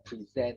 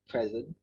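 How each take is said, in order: First: The stress is on the second syllable. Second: The stress is on the first syllable. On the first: It means to give a speech. "or present, which means to give a speech" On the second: It means a gift. "this has two pronunciation, It can mean present, which is your gift"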